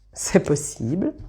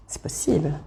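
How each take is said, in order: First: Said in the usual way. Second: "C'est possible" breathed out as a soft unvoiced whisper. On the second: Real, not acted. Tarot reader to viewers, teasing secretive whisper.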